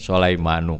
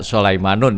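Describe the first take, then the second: First: The word ends on a short u vowel. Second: The word ends with an added n sound. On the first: The speaker calls it right. "ini Sulaimanu, karena ini termasuk isim ghairu munsharif" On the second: The speaker calls it wrong. "Tidak Sulaimanun ya"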